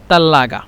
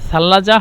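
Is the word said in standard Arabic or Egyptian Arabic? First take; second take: Egyptian Arabic; standard Arabic. First: It is said in Egyptian dialect pronunciation. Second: It is said in standard Arabic pronunciation. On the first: "মিশরের আঞ্চলিক ভাষা হলো তাল্লাগা" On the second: "সাল্লাজা হলো শুদ্ধ ভাষা"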